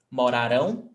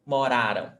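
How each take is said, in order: First: Morarão with stress on the last syllable rão, pitch rising at the end; mo-ra-RÃO, weight at the end of Morarão; stress on final rão. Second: Moraram with stress on the middle syllable ra, falling away after it; mo-RA-ram, weight in the middle of moraram. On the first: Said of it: "the stressed syllable is rão". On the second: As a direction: lean on RA in moraram, weak ending. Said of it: "the stressed syllable is ra". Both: Shown as a demonstration.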